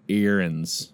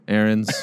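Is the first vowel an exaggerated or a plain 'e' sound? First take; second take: exaggerated; plain. First: The first vowel is a stretched, exaggerated 'e'. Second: The first vowel is a plain, ordinary sound.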